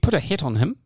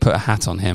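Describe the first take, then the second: First: It is said in a New Zealand accent. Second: It is said in the speaker's usual accent.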